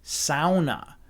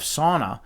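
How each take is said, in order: First: Sauna is said the Finnish way. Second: Sauna is said the common English way. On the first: The speaker calls it right. "but it's actually sauna" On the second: The speaker calls it wrong. "I don't know if you guys know the correct pronunciation of"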